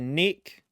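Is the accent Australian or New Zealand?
Australian. It is said in an exaggerated Australian accent. "Neck being like uh, Australian"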